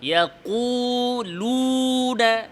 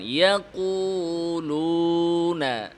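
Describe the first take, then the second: First: ইয়াকুলুনা with tense, over-pressed lips, higher; lips pressed too hard. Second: ইয়াকুলুনা with natural, relaxed lips, slow. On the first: Teacher showing the wrong, tense lips. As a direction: demonstrate the mistake: squeeze the lips on ইয়াকুলুনা. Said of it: "ঠোঁটে অতিরিক্ত চাপ দেওয়া". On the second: Teacher showing the correct relaxed waw. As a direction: say ইয়াকুলুনা keeping the lips normal. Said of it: "ঠোঁটকে স্বাভাবিক রাখেন". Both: Shown as a demonstration.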